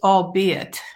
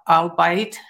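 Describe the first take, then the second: First: The word ends sounding like 'be it'. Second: The word ends sounding like 'bite'. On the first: The speaker calls it right. "It's albeit" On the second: The speaker calls it wrong. "I thought it was albite"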